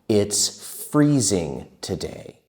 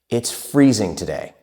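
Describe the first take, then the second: First: It is spoken at a slow, careful pace. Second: It is spoken at a fast, fluent pace.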